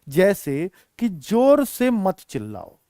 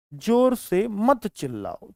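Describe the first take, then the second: First: Said in the usual way. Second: जोर से said slowly with weight on जोर; slow teacher demo, जोर punched; stress on जोर. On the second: Shown as a demonstration. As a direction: lean into जोर, slow and deliberate. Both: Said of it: "करने पर उसने जोर दिया है".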